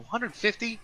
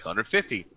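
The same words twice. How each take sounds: First: High rising disbelief on Hundred fifty; incredulous Hundred fifty, much higher; shocked question. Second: Said in the usual way. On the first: Retold or imitated. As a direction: balk at the price. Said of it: "I go".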